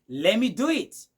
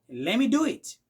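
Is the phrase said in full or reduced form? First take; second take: reduced; reduced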